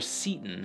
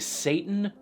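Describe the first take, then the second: First: The first vowel sounds like 'see'. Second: The first vowel sounds like 'say'. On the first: "whether this is supposed to be Satan or Seaton" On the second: "whether this is supposed to be Satan or Seaton"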